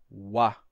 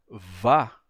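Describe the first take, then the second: First: It begins with a rounded w sound. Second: It begins with a buzzing v sound. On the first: "a gente tivesse a pronúncia uá, que aí seria muito mais próximo do som de U" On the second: "em vez de vá"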